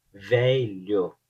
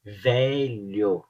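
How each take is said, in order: First: "velho" with the palatal LH, the tongue flat against the palate; the right way, "velho" as vélho; correct lh sound. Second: "Velho" said as vélo, plain L instead of the LH sound; a learner's mistake, "Velho" with a plain L; wrong lh sound. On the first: ("velho" com o som de LH correto) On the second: ("Velho" com L simples, como estrangeiro) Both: Shown as a demonstration. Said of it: "o L H é um pouco difícil".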